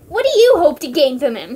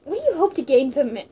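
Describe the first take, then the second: First: "you" punched, whole line louder; stress on you. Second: Said in the usual way. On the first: Shown as a demonstration. Ocelot challenging Liquid, louder with the stress on "you". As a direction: lean hard on "you".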